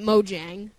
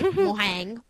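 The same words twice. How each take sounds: First: It is said in neither imitated way. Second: It is said the Spanish way. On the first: "I say it" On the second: "Spanish people probably say"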